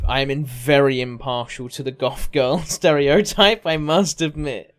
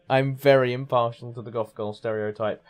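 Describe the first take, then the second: First: Laughing. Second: Said in the usual way. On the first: Real, not acted. Laughing confession on stream.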